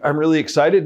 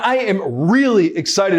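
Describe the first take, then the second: First: It is said flatly, sounding bored. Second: It is said with lively, excited energy. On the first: The speaker does not seem to care. The speaker calls it wrong. "Sounds like you're bored to death" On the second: The speaker is eager to share something. The speaker calls it right. "That sounds exciting, right?"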